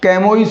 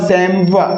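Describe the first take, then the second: First: It starts with k and ends in -ois. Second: It starts with s and ends in -wa. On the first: "क्या कैमोइस हो जाएगा?" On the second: "इसका correct जो pronunciation है वो क्या होगा? वो होगा सैमवा।"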